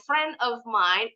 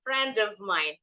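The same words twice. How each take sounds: First: "friend of mine" as "fren of mine", D missing; unlinked, non-native way. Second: "friend of mine" run together as "fren-dov mine"; the D of FRIEND carried into OF; linked D. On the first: Teacher shows what sounds non-native, unlinked "friend of mine". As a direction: separate FRIEND from OF and drop its D. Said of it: "nggak kedengeran kayak orang bule". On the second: Teacher confirms the right way, linked "friend of mine". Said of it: "Baru betul". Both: Shown as a demonstration.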